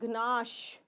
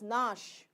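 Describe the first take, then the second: First: A G sound is heard before the N. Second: It starts directly with the N sound. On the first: The speaker calls it wrong. "It is not gnash" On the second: The speaker calls it right. "It is nash"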